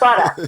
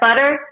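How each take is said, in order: First: It is said in a Brooklyn accent. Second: It is said in a plain, standard accent.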